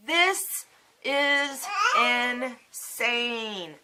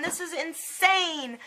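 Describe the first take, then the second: First: "This is insane" extremely slow, each word drawn out; word-by-word emphasis. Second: High, slowed exclamation of disbelief; exasperated disbelief. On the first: Patient repeating her disbelief, drawn out word by word. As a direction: hold each word long, stretching "insane" most. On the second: Patient upset at her primary, exasperated disbelief. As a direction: stretch "insane" out on a high pitch. Retold outburst, said twice. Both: Retold or imitated.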